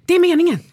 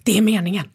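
First: High, loud burst of excitement; excited. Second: Said in the usual way. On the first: Retold or imitated. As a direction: blurt it out, thrilled to see the team. (högt och upprymt, "Det är meningen") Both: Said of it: "och så bara".

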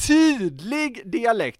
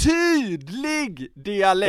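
First: Slow "tydlig" pressed down, falling tune; stress on TYDLIG. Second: "Tydlig" drawn out slowly and weighted; slow stress on TYDLIG. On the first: Host restating his point, stressing "tydlig" slowly. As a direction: weigh "tydlig" slowly then let it fall. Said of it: "återigen". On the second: Podcast host hammering his point, slowly stressing "Tydlig". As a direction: lean hard and slow on "Tydlig". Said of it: "Men, eh, mm". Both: Shown as a demonstration.

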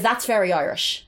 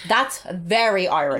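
First: Said in the usual way. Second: "very Irish" slowed down for emphasis; emphatic repetition. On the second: Real, not acted. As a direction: draw out "very Irish" to drive it home. Repeats the phrase for emphasis.

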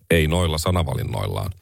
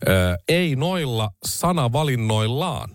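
First: "Ei noilla sanavalinnoillaan" said lower, in a flat monotone; deadpan it with no lift on any word; monotone Orpo impression. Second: Slow, weighty delivery of "ei noilla sanavalinnoillaan", each word pressed; said emphatically. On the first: Mocking the prime minister's reply, in a low monotone. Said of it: "Hänhän puhuu aika sellaisella monotonisella äänellä". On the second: Retold or imitated. Quoting Orpo's reply to the reporter, slow and emphatic. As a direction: lean on "ei" and draw the words out. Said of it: "Hän sanoi painokkaasti".

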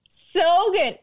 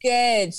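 First: High, loud and delighted; excited. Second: Said in the usual way. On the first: Real, not acted. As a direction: gush about it.

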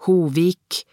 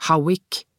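First: "Hovik" said the Norwegian way, "hoo-veek" with a v; Norwegian pronunciation. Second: "Howick" said the American way, "how-ick" with a w; English pronunciation. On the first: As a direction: say "Hovik" as a Norwegian name, trying it out. («Hovik» med norsk uttale) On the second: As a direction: say "Howick" as an English name, testing it. («Howick» med engelsk uttale) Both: A narrator's reading. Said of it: "sa Kjell med norsk uttale".

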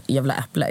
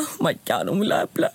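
First: Said in the usual way. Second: Rising, overwrought little outburst; mock tearful. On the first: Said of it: "om mormor bara". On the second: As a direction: act as if moved to tears, lightly. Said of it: "jag kunde börja gråta".

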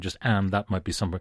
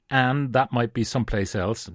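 First: Said in the usual way. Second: "and" said without its final D, as "an"; dropped D in and. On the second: Shown as a demonstration. Reading the Dundalk passage aloud, "and" said without its final D. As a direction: run "and" into "that" with no D sound. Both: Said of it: "No D in the and".

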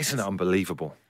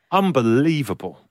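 First: Soft awed whisper; whispered amazement. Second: Said in the usual way. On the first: Real, not acted. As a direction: hush it in wonder. Whispered answer.

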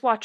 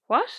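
First: Said in the usual way. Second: Imitated "what?" swooping up in shock. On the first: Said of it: "she means what?". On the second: Sister explaining what her sibling means, shocked. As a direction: lift "what" sharply into a shocked question. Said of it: "exclamation mark".

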